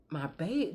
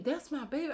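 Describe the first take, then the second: First: Said in the usual way. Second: Said high and tender; doting. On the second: Real, not acted. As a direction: coo it like a proud grandma. Doting repeat of my baby.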